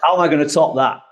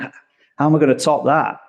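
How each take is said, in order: First: The tone sounds confident and upbeat. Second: The tone sounds doubtful and unsure. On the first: The speaker is eager for the next challenge. The speaker calls it right. "this way of saying it" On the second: The speaker doubts they can do better. The speaker calls it wrong. "it is a more doubtful tone"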